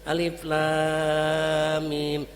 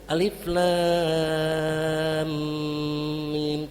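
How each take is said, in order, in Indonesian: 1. Mim dipotong tanpa dengung sengau. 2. Mim ditahan dengan dengung sengau. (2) "Mimnya berdengung"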